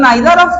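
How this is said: It is said the British English way.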